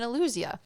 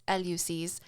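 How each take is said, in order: First: Eleusis said as uh-LOO-zee-uh, stress on the second syllable; the wrong take, Eleusis as uh-LOO-zee-uh; mispronounced Eleusis. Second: Eleusis said as EL-yoo-sis, stress on the first syllable; the right take, Eleusis as EL-yoo-sis with a hard final s; corrected Eleusis. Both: Shown as a demonstration. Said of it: "Pardon me, it's Eleusis".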